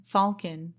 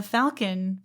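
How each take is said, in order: First: "Falcon" with open ah vowel; alternate pronunciation. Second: "Falcon" with short a as in "pal"; alternate pronunciation. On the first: Host correcting the ship's name, open-ah "Falcon". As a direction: say "Falcon" as FAHL-kun. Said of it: "the Falcon". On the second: Host trying one pronunciation of the ship's name, short-a "Falcon". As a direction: say "Falcon" with a flat-cat vowel, FAL-kun. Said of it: "Falcon, meanwhile". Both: Shown as a demonstration.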